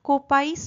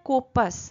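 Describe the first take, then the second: First: The second syllable has an 'eye' vowel. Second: The second syllable has a short plain vowel. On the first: The speaker calls it wrong. "কোপাইস নয় কিন্তু" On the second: The speaker calls it right. "উচ্চারণটা কোপাস"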